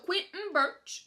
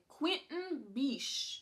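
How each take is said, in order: First: The surname ends with a 'ch' sound. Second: The surname ends with an 'sh' sound. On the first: The speaker calls it wrong. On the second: The speaker calls it right.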